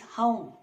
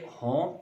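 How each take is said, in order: First: The vowel glides as a diphthong. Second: The vowel is a single pure sound. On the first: The speaker calls it right. "The correct pronunciation is home" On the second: The speaker calls it wrong. "it's incorrect pronunciation"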